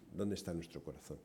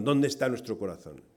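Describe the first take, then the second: First: Much softer, lower, reflective question; hushed repeat. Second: Said in the usual way. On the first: Real, not acted. Preacher repeating the question to the congregation, hushed. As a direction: let the question sink in quietly.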